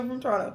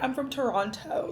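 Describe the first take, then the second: First: The T's are dropped, Toronto style. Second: The T's are crisply over-enunciated.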